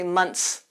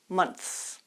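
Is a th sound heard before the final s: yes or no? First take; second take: no; yes. First: The th sound before the s is missing. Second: A th sound is heard before the s. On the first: The speaker calls it wrong. "You don't want to say months" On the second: The speaker calls it right. "Make sure your tongue goes out"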